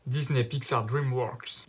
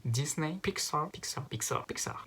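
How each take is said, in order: First: Said in the usual way. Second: "Pixar" said the English way, higher and softer; English accent. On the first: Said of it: "j'essaie juste de le dire". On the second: Shown as a demonstration. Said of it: "avec l'accent anglais". (accent anglais sur "Pixar")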